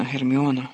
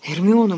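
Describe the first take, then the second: First: Calm. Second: Герміоно called out loud and higher, urgent; exclaim. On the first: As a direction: calmly say Герміоно to settle her. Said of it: "на диво спокійним". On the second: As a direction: shout Герміоно to stop her. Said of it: "вигукнув Люпин". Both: A narrator's reading.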